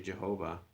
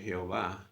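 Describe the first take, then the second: First: The name is said with English pronunciation. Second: The name is said with Spanish pronunciation. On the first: "you're not gonna say Jehovah" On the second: "in Spanish you're gonna see you're gonna say Jehová"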